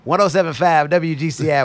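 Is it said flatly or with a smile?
with smile. It is said warmly, with a smile.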